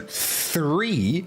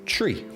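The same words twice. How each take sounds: First: It begins with a soft TH sound. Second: It begins with a plain T sound. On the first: "if I say" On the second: "in Ireland we say"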